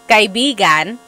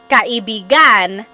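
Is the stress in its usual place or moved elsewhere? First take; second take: usual; moved. First: The stress falls on its usual syllable. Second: The stress falls on a different syllable. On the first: It means friend. "kaibigan means friend" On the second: It means lover. "if you put the stress somewhere else, like kaibigan"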